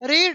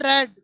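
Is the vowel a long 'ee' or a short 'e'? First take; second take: long ee; short e. First: The vowel is a long 'ee' sound. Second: The vowel is a short 'e' sound. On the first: It is the present form. "इसको रीड पढ़ेंगे" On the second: It is the past form. "उच्चारण अलग होगा"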